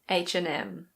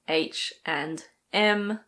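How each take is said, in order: First: It is said quickly, at normal speaking speed. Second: It is said slowly and carefully. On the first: "when we speak, we normally say H and M" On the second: "If you want to slow it down"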